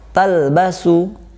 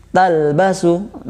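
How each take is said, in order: The two takes are said the same way.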